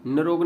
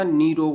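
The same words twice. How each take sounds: First: निरोग with short first vowel; short opening syllable, then रोग in निरोग; wrong pronunciation. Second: निरोग with long ई in the first syllable; correct pronunciation. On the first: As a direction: hurry through नि in निरोग to a brief syllable. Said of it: "निरोग नहीं होता". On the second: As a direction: stretch निरोग to नी-रोग. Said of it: "निरोग होता है". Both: Shown as a demonstration.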